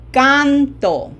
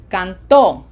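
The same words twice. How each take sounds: First: CANto, loud high CAN falling on "to"; stress on first syllable. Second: CanTO, loud ending; stress on last syllable. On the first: Teacher repeats for learners, canto stressed on CAN. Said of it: "Can is emphasized". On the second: Teacher repeats the other way, canto stressed on TO. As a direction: throw the weight onto TO in canto. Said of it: "the other way would be". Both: Shown as a demonstration.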